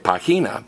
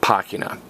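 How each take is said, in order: First: The stress is on the second syllable. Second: The stress is on the first syllable. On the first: The speaker calls it wrong. "don't stress the next to last vowel. Don't say página" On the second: The speaker calls it right. "Stress me"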